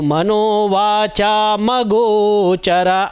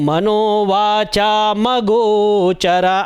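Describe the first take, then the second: First: The m runs straight into the next word. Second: The same.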